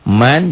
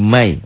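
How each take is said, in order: First: The final n is pronounced clearly as n. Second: The final n merges into a nasal y sound.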